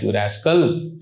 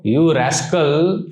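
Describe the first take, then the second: First: Put-on lower, fond old man's scold; a gentle grandfatherly rebuke. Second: Slow, drawn-out playful scolding; mock scolding rascal. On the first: Grandfather admonishing a deviant grandchild, low fond scold. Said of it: "Like he's saying". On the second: Guru teasing his disciple, slow playful scold. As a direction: stretch it out, teasing. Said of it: "would speak strong language sometimes".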